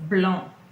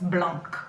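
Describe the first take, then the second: First: The final C sound is silent. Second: The final C sound is pronounced. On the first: The speaker calls it right. "I'm not pronouncing the C" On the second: The speaker calls it wrong. "It's not blanc"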